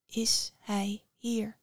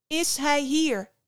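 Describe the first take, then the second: First: Slow breathless whisper; barely dares to ask. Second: Called out higher and louder, slow; calling after. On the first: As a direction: Psyche hushed, asking after her lover. Psyche asks again, hushed. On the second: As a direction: shout after someone walking away. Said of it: "riep Psyche haar achterna". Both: Acted.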